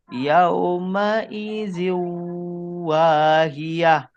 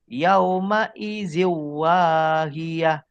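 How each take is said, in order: First: The merged sound is nasalized and held longer. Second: The merged sound is plain, with no nasal hum. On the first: The speaker calls it right. "yang betul masuk dan dengung" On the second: The speaker calls it wrong. "Dia dah betul masuk tetapi tidak dengung. Salah"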